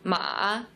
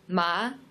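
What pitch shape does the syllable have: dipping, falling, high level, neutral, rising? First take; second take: dipping; rising. First: The pitch falls and then rises. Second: The pitch rises like a question. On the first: "the third one is a falling and then rising tone" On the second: "the second tone it's a rising tone"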